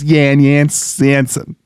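The name is said with German vowels. "since we are in Germany, it is Jan Jonsson"

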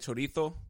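The z is said with a th sound. This is how people in Spain say it. "they want to use like the thud noise or like the TH sound"

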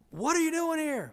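The tone is warm and delighted. The visitor is very welcome. "That's great news if they say it like that"

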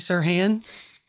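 It is said in an Oklahoma accent. This is how people say it locally. "I say Sirhan"

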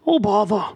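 It is a Pooh voice that sounds like Pennywise.

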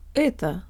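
It is said with a Russian vowel quality. The speaker calls it right. "we can make it sound Russian by resetting our default mouth position"

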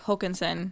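The surname is said with a traditional Swedish pronunciation.

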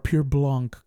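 The name is pronounced the French way.

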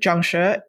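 It is said the way the speaker learned it. "because I grew up in Hong Kong, the way that I learned that word"

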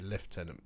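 It is said the British way, like lef-tenant. "the British say Lieutenant"

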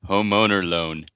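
It is said in an American accent. The speaker calls it wrong.

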